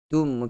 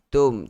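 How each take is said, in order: First: The syllable has a u vowel. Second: The syllable has an o vowel. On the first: The speaker calls it right. "okey, bukan tom" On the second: The speaker calls it wrong. "bukan tom"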